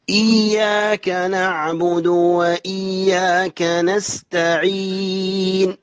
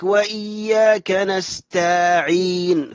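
First: Slow chant, short a after t in نستعين; correct recitation. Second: Slow chant, long aa after t in نستعين; added alif. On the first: Shown as a demonstration. Teacher models the verse, slow chant with short "ta" in نستعين. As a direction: recite slowly, t moving straight to ayn in نستعين. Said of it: "بين التاء المثنى الفوقانية والعين". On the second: Retold or imitated. Teacher mimics a mistake, extra long aa inside نستعين. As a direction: stretch نستعين into "nastaaʕeen". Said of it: "فيجعل ألفا".

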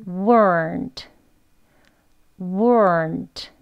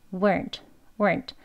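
First: "weren't" said slowly and carefully; slow practice. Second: Soft light "weren't" with little r pull; relaxed weak form. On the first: Teacher practises "weren't" slowly with students. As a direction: give "weren't" time. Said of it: "천천히 해보겠습니다". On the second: Teacher shows casual unstressed "weren't", soft. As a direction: let "weren't" slip out lightly. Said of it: "혀 조금만 또 당기면서". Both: Shown as a demonstration.

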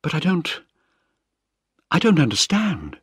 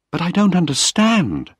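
First: Higher, lightly voiced Penny, lost and confused; a stunned daughter, pitched up; young woman, bewildered. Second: Put-on higher, distressed young woman's cry; Penny crying out after reading her father's letter. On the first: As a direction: daughter unable to grasp the letter, higher and bewildered. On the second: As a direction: pitch it up in upset disbelief. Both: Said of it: "she cried".

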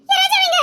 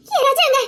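First: Much higher, crying out his name; sobbing call. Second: Higher, tearful cry for him; anxious call. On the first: A woman, now desperate, crying out for Raja. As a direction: break into a sob as you call. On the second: A woman frantically searching the house for Raja. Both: Acted.

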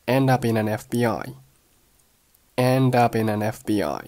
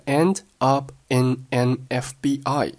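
First: "end up in an" run together as en-dup-i-nan; linked chain. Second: Said in the usual way. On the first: Shown as a demonstration. Teacher demonstrates linking, "end up in an" in one chain. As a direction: link every word in "end up in an F B I". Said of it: "发生了一连串的连读". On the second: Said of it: "后面的end up in an F B I".

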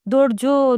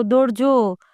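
First: First cry pitched higher, a mild narrated scream; first of two cries for help, higher. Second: Repeated cry for help. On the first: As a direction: call Dodjo out high with urgency. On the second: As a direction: repeat the call, easing down a little. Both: A narrator's reading. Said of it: "બાઈએ ચીસ પાડી".

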